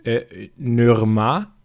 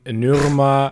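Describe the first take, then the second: First: "Nürma" said slowly with French ü and rising end; "Nürma" drawn out like a French word; French-style pronunciation. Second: "Nürma" repeated louder with French ü; "Nürma" said as a French brand name; French-style pronunciation. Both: Shown as a demonstration. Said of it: "ich habe Norma französisch ausgesprochen".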